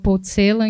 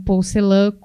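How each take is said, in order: First: The name is pronounced the German way. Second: The name is pronounced the French way. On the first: "é a pronúncia em língua alemã" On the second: "ele ficou famoso pela pronúncia francesa"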